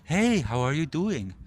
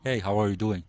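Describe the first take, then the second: First: The voice sounds eager and approval-seeking. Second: The voice sounds even and neutral. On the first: The speaker wants the listener's approval. The speaker calls it wrong. "trying for tonality" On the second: The speaker is on equal terms with the listener. The speaker calls it right. "neutral rapport"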